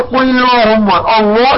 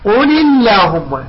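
First: "اللهم" with dark, rounded "llo"; slow faulty "قل اللهم", thickening the lam of "اللهم"; wrongly heavy lam. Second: "اللهم" with thin, front "llaahumma"; slow "قل اللهم", lam light and drawn out. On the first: Teacher shows the mistake to avoid, heavy "اللهم". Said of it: "لا نقول". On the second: Teacher corrects the error, thin lam in "اللهم". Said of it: "اللهم نرققها". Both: Shown as a demonstration.

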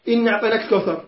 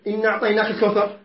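First: إنا أعطيناك الكوثر with the alif of إنا kept long; proper reading. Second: إنا أعطيناك الكوثر read fast with the madd dropped; rushed wrong reading. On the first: Teacher contrasting the correct reading with the rushed one. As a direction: read إنا with its full madd. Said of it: "القراءة هكذا". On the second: Teacher imitating people who read the verse too fast. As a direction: skip the long alif in إنا, hurried. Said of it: "بعضهم يقرأ هكذا". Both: Shown as a demonstration.

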